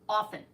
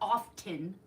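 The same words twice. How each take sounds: First: The t in the middle is silent. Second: The t in the middle is pronounced. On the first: The speaker calls it right. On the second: The speaker calls it wrong.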